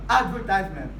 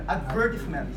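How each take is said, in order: First: It is said with an American pronunciation. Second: It is said with a British pronunciation. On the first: "But in American English, they pronounce advertisement" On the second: "in British English, um, they pronounce it"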